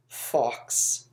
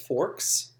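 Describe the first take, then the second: First: The name is said without an R sound. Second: The name is said with an R sound. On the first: This matches how the name is spelled. The speaker calls it right. "There's no R in it" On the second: This is how the audiobook narrator says it. The speaker calls it wrong. "Jim Dale says Forks"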